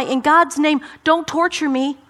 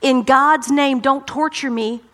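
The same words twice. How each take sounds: First: Pleading cry. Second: Mock shout. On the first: Acted. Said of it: "he says to Jesus". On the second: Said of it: "he shouted at the top of his voice".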